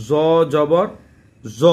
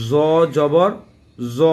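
No difference in how they are said.

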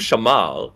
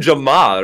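First: The name begins without a J sound. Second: The name begins with a J sound. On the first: "I would call him Shamal" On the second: "You called him Jamal, right? With a J, basically"

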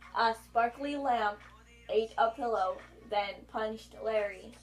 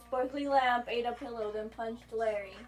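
First: It is said more slowly. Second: It is said at normal speed.

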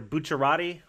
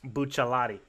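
First: The name is said with an R sound. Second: The name is said with an L sound. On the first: "either an R" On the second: "or an L"

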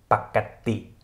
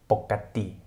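First: The first syllable has a short 'a' vowel. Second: The first syllable has an 'o' vowel. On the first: "nicht nur als Pakati" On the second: "sondern auch als Pokati, Pokati gesprochen werden kann"

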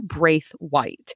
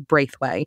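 First: The name is said without the New Orleans pronunciation. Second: The name is said with a local New Orleans pronunciation. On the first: The speaker calls it right. "Gene had to correct me... it's Christina Braithwaite" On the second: The speaker calls it wrong. "New Orleans, this is Braithwaite"

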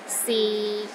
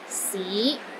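First: The pitch is low and steady. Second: The pitch rises from low to mid. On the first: It means is. "the sixth tone is low and steady, but not as low as the fourth tone" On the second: It means city. "It starts low then rises to the middle of your range"

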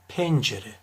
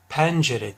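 First: The E vowel is said closed. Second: The E vowel is said open. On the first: The speaker calls it right. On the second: The speaker calls it wrong.

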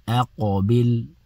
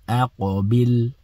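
Both takes have the same delivery.

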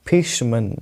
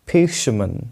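Both takes have the same delivery.

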